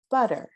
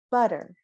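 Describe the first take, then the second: First: Butter with a weak er ending; unaccented er. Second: Butter, the final er kept weak; unaccented er. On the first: Teacher showing the class an unaccented er: butter. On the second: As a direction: repeat butter, the er short and light. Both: Shown as a demonstration. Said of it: "the non-accented er".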